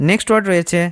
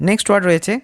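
The two takes are said the same way.

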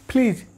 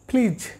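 First: The p is said with a burst of air. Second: The same.

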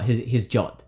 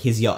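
First: The word begins with a J sound. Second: The word begins with a Y sound.

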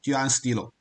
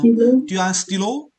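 First: The voice falls like a statement at the end. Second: The voice rises like a question at the end.

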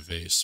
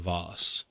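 First: The word is said in a plain, everyday way. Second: The word is said in a posh, refined way. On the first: "I call it a vase" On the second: "if I'm trying to be posh"

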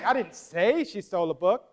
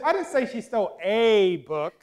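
First: The stress is on the word say. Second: The stress is on the word a.

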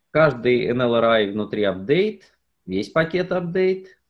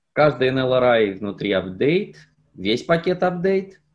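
No difference in how they are said.

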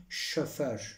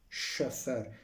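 First: The vowel is said as a dotted vowel. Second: The same.

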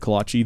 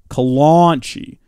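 First: There is no n sound before the ch. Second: An n sound comes before the ch. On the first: The speaker calls it right. "the kolache is amazing" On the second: The speaker calls it wrong. "My grandmother calls the kolache the kolanchi"

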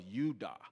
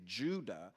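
First: The word begins with a Y sound. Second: The word begins with a J sound. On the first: This is the original pronunciation. "It was actually a Y" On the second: This is the usual modern pronunciation. "how we pronounce it"

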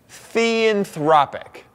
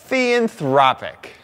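First: It is said plainly, without extra feeling. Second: It is said with strong feeling and energy.

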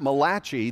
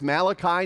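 First: The name is said the Italian way. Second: The name is said the plain English way. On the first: The speaker calls it wrong. "not Malachi, the Italian prophet" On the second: The speaker calls it right. "it's Malachi"

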